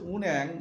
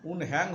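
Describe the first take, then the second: First: The middle h sound is dropped. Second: The middle h sound is clearly pronounced. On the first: The speaker calls it right. "হিওত উজ্জ্বত হবে" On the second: The speaker calls it wrong. "উন হ্যাং হবে না"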